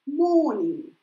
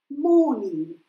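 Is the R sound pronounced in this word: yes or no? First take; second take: no; no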